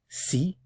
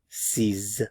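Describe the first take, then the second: First: The word ends on the vowel, with no consonant. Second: The word ends with a voiced z sound. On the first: The number comes before a word starting with a consonant. "before a consonant" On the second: The number comes before a word starting with a vowel. "before a vowel sound"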